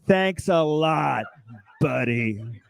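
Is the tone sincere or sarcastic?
sarcastic. It sounds bitterly sarcastic.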